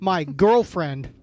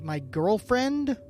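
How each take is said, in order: First: It is said like an exclamation. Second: It is said like a question.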